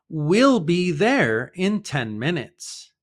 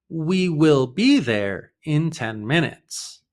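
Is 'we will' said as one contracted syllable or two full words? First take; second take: contracted; full. First: We will is contracted to one syllable. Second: We and will are said as two words. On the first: "The pronunciation is just like the future word will" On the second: "just means we will"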